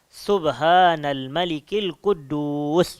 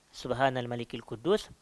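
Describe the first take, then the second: First: It is drawn out and said louder. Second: It is said short at normal loudness.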